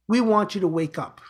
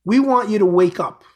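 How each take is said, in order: First: Said in the usual way. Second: Louder, driving the words home; emphatic wake-up call. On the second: Real, not acted. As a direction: call them awake with force. Preaching wake-up call to listeners.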